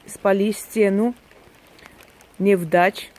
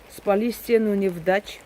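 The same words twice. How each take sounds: First: It is read slowly, syllable by syllable. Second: It is read quickly and fluently. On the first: "Читаю по слогам" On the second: "прочитаю более так бегло"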